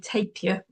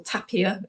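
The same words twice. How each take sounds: First: It is said with the speaker's own pronunciation. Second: It is said with the locals' pronunciation.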